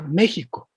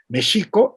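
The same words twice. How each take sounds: First: The x is said as a throaty 'j' sound. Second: The x is said as a 'sh' sound. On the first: "al sonido g" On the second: "De la X del sonido sh"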